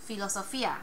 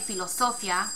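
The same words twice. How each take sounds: First: The stress falls on the syllable fi. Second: The stress falls on the syllable so. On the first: The speaker calls it right. "It's filosofia. ... accent on the I" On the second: The speaker calls it wrong. "we don't say filosofia"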